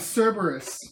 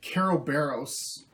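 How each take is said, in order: First: The name is pronounced the common way. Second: The name is pronounced an odd way.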